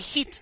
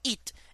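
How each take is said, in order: First: The word begins with an h sound. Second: The word begins without an h sound. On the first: "sometimes he would say hit" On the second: "not eat"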